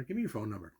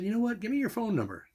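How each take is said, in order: First: Said in the usual way. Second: Higher, excited friendly voice of Bob; eager Bob. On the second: Retold or imitated. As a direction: retell his eager request, pitched up. Bob eagerly asks for number.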